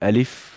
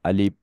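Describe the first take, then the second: First: The lips stay apart on the final sound. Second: The lips close together on the final sound. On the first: The speaker calls it right. "দুই ঠোঁট ফাঁক করে বলতে হবে" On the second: The speaker calls it wrong. "ভুল হয়েছে, দুই ঠোঁট মিলবে না"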